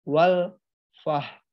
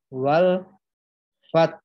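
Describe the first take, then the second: First: It ends in a soft h, no stress. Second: A stressed high consonant, then a low h. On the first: The speaker calls it wrong. "bukan juga dibaca wal fah" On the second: The speaker calls it right. "taknya ditekan tinggi, haknya diikuti suara hak sukun dengan nada yang rendah"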